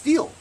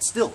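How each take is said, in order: First: The vowel is long, as in 'steel'. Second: The vowel is short, as in 'still'. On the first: The speaker calls it right. "It's steel" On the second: The speaker calls it wrong. "that guy called it still"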